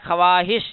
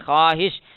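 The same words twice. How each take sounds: First: A clear w sound follows the first consonant. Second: No w sound follows the first consonant. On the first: "लिखा हुआ है ख्वाहिश" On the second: "लेकिन क्या पढ़ेंगे?"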